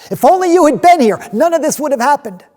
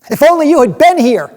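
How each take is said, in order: First: High, loud anguished wail; tragic heroine sorrow. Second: High, loud sobbing wail; tragic heroine sorrow. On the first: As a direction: break down crying. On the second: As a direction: cry it out in grief. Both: Acted. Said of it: "they sobbed at his feet".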